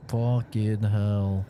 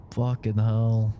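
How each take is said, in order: First: Slow, leaning on "fucking"; exasperated swear. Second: Slow, leaning on "hell"; exasperated swear. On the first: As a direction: hit "fucking" hard, then let "hell" fall. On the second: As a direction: drag it out and land on "hell". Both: Real, not acted. Same words said twice.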